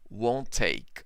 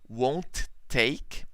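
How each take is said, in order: First: The two T sounds merge into one. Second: The T sound is pronounced twice, separately. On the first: The speaker calls it right. "No, won't take" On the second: The speaker calls it wrong. "we don't uh, pronounce le letter T twice. Won't take? No"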